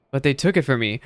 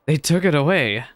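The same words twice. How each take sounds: First: "it" lifted and held in "they took it from me"; stress on it. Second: "it" pushed high and loud in "They took it away"; anguished stress on it. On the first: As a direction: lean on "it", falling after. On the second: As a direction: hit "it" hard, voice breaking. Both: Acted.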